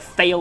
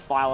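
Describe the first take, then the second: First: The word is said like 'fail', starting with f. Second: The word is said like 'vial', starting with v.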